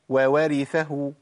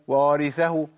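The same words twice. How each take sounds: First: Two distinct waw sounds are heard at the start. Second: Only one waw sound is heard at the start. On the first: The speaker calls it right. "فين يا عم الواوين؟" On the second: The speaker calls it wrong. "ما قلتش وورثه"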